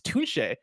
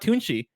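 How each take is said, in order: First: The name ends with an 'ay' sound. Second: The name ends with an 'ee' sound. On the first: The speaker calls it right. "it's Tunche" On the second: The speaker calls it wrong. "It's not Tunchi"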